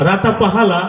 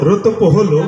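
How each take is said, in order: First: Every vowel sound is replaced with 'a'. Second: Most vowel sounds are dropped from the words. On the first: "তুমি কালকে আকার দিয়ে পড়ে আসো।" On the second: "আকার ওকার রসিকার ছাড়া পড়ে আসবা"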